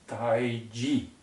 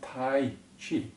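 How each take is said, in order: First: The second syllable begins with a j sound. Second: The second syllable begins with a ch sound. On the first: The speaker calls it right. "it's Taiji, T A I J I" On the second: The speaker calls it wrong. "it's not Tai Chi"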